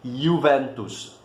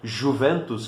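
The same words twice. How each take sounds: First: The first sound is a 'y' sound. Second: The first sound is not a 'y' sound. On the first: This is how it is said in Italy. "na Itália pronuncia-se" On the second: This is how it is called in Brazil. "aqui no Brasil nós chamamos de"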